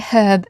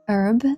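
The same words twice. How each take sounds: First: The word begins with a clear H sound. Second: The word begins with no H sound. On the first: "I say herb as in hard H" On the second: "in American English, herb is pronounced herb"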